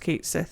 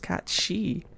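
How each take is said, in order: First: The name is said as 'kate sith'. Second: The name is said as 'cat shee'. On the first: The speaker calls it wrong. "it's not pronounced Cait Sith" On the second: The speaker calls it right. "it's pronounced cat she"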